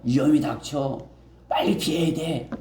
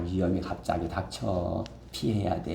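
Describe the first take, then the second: First: It sounds urgent and alarmed. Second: It sounds cheerful, like offering a gift.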